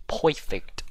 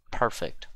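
First: "Perfect" said as "poifect"; goofy mispronunciation. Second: Said in the usual way. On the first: Pretend. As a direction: turn the first syllable of "Perfect" into "poy", playfully. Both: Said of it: "Don't ask me why I said that".

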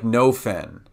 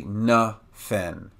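First: "no fen" with a full O, like the word "no"; the tempting "no fen" with a clear O; wrong no fen. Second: "na fen" with a weak schwa, "nuh fen"; the real "na fen", with the vowel reduced; correct na fen. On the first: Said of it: "it would sound like no fen". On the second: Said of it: "but it's actually na fen". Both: Shown as a demonstration.

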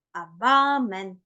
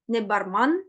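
First: Бармен slowly, stretched, with a clear e in the second syllable; correct British reading. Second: Барман with a flat second a, said as the wrong way; reading барман wrongly on purpose; wrong vowel. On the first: Teacher models the right бармен for students, slowly. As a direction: slowly model бармен with long ба and short мен. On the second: Teacher shows students the wrong барман reading, plainly. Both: Shown as a demonstration. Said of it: "Не бармен, не барман, а бармен".

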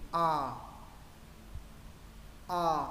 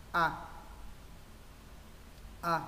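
First: Long A with the mouth opened top to bottom; vertically opened A. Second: Short open A with the chin lowered; jaw-drop A. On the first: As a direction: open tall and hold the A. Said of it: "Chữ A thứ hai mở trên dưới". (âm A dài, mở miệng trên dưới) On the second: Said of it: "Chữ A thứ nhất hạ cằm". (âm A hạ cằm) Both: Shown as a demonstration.

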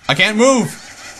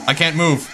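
First: Slow, higher panicked "I can't move!". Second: A laughing, disbelieving "I can't move"; nervous laugh. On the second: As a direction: laugh it off, not yet scared. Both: Acted. Frozen by Flowey.

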